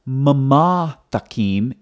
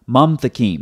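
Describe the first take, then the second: First: A vowel is sounded after the second m. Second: No vowel is sounded after the second m. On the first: The speaker calls it wrong. "So it's not mamathakim" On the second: The speaker calls it right. "it's mamthakim"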